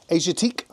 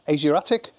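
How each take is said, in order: First: The name is said with a French pronunciation. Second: The name is said with an English pronunciation. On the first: "sounds like Asiatique to me" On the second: "That's how the English owner pronounce it"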